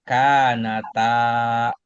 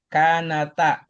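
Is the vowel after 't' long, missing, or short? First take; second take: long; short. First: The vowel after t is held long. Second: The vowel after t is cut short. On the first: The dual alif is present. The speaker calls it right. "Panjang dikit ya" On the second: The dual alif is lost. The speaker calls it wrong.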